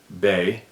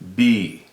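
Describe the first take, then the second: First: The vowel sounds like 'ay' in 'bay'. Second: The vowel sounds like 'ee' in 'bee'. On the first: This is how some dialects say it. "some dialects pronounce it Bay" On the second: This ties the name to the Creator. "go with B"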